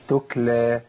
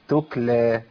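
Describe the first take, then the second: First: The second consonant drifts back toward a k sound. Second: The same.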